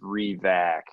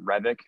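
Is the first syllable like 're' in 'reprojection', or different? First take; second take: like 're'; different. First: The first syllable is like 're' in 'reprojection'. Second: The first syllable is not like 're' in 'reprojection'. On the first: This is how the name's owner says it. The speaker calls it right. "no, it's Revac. You just R E, like you're doing re-projection" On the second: This is how others usually say the name. The speaker calls it wrong. "everyone pronounces it"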